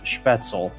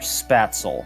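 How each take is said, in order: First: The word is said with German pronunciation. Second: The word is said with another Americanized pronunciation. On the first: The speaker calls it right. "one of about four Americans who who actually pronounces it uh, Spätzle" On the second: The speaker calls it wrong. "or Spatzel"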